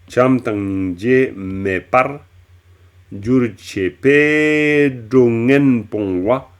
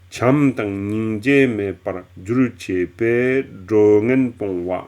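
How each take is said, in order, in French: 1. La syllabe "par" est fortement exagérée. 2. La phrase coule bien, sans exagération. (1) "J'ai beaucoup exa exagéré sur P pour bien dire qu'il y a un génitif ici" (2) "Je vous la redis d'une manière plus fluide"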